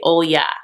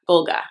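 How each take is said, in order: First: The name is said without a G sound. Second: The name is said with a G sound.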